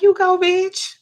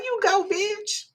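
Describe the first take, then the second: First: High, loud cheer; cheering her on. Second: High, slow, rising cheer; drawn-out cheer. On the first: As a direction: whoop it out like a proud friend. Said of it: "I was like". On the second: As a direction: savour every word of the praise. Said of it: "but I was like". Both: Retold or imitated.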